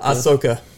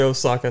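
First: The name begins with an 'ah' sound. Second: The name begins with an 'oh' sound. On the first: The speaker calls it right. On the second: The speaker calls it wrong.

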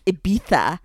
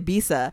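First: The middle consonant is said as a 'th' sound. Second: The middle consonant is said without a lisp. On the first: This is how people in Spain say it. "the way Spanish people would say it, it's Ibiza, because we're talking about the Castilian lisp" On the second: This is how most people say it. "where people say Ibiza"

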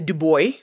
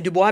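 First: The name is said with American pronunciation. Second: The name is said with French pronunciation. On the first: "for Americans listening, I know you say Du Bois" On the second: "that's how we say it in French"

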